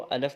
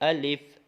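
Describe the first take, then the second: First: The second vowel is a short a. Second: The second vowel is a short i. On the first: The speaker calls it wrong. "कहीं इसको अलफ बोलते हैं" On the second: The speaker calls it right. "इसको अलिफ बस ऐसे बोलेंगे"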